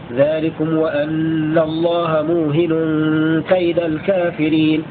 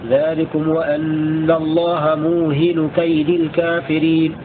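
First: The h is single, with nunation and accusative ending. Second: The h is single, without nunation, genitive ending. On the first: "بتخفيف الهاء وبالتنوين والنصب هكذا" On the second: "بتخفيف الهاء وبدون تنوين وبالخفض هكذا"

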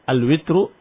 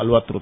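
First: The vowel after w is i. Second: The vowel after w is a. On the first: "ini dibaca al-witru dengan kasrah di waw" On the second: "ada juga yang membaca dengan fathah"

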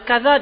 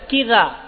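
First: The first vowel is an open a sound. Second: The first vowel is a close i sound. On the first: This is the standard form of the word. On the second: This is the everyday colloquial form.

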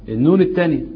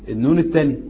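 No difference in how they are said.

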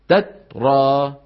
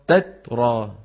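Both takes have the same delivery.

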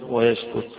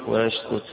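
Both takes have the same delivery.

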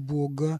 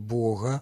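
First: The g is a hard plosive sound. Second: The g is a soft fricative sound. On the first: The speaker calls it wrong. "а не «бога»" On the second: The speaker calls it right. "когда мы произносим вот это «г» фрикативно"

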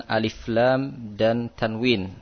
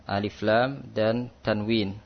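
The two takes are said the same way.

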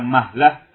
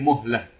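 First: The first vowel is an open 'a' sound. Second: The first vowel is a rounded 'u' sound. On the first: The speaker calls it wrong. "Bukan mahlah" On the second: The speaker calls it right. "Muhlah dengan mendomah mim"

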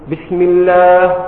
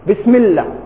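First: The long vowel is held for two counts. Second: The long vowel is cut short. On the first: The speaker calls it right. "هذا مد طبيعي" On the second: The speaker calls it wrong. "لو تصورت عدم المد كيف تقول؟"

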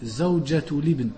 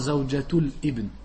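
First: 'Zawjatul' links into 'ibn' with no catch. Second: A glottal catch comes before 'ibn'. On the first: The speaker calls it right. "on dit Zawjatul Ibn" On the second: The speaker calls it wrong. "pas Zawjatul Ibn"

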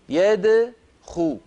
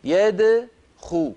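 First: The d sound is unrounded with a bouncing release. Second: The same.

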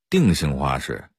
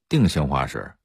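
The two takes are said the same way.

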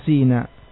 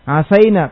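First: The vowel after the s is i. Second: The vowel after the s is a. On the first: "terkadang sinnya asa itu dikasroh" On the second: "Asaina terkadang dibaca asina"

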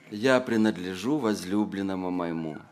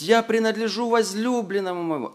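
First: It is said sorrowfully, with a sigh. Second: It is said joyfully, with a glad tone. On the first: Belonging is a misfortune that happened. The speaker calls it wrong. "и со вздохом: «Эх" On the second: Belonging is a source of gladness. The speaker calls it right. "здесь наоборот мы видим радость"

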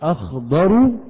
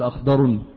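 First: The word ends without an added n sound. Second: The word ends with an added n sound. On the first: The speaker calls it right. "هذه الثمرة أخضر من هذه" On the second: The speaker calls it wrong. "ولا تقول أخضر"

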